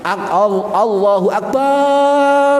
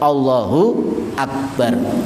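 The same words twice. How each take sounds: First: The vowel after b in Akbar is drawn out. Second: The vowel after b in Akbar is kept short. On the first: It turns the word into a plural meaning many drums. The speaker calls it wrong. "dibaca panjang" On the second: It means God is the Greatest. The speaker calls it right. "Harus jelas"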